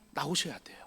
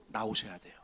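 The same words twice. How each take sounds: First: Softer whispered echo of 나오셔야 돼요. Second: Said in the usual way. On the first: Real, not acted. Preacher urging the congregation echoes himself in a whisper.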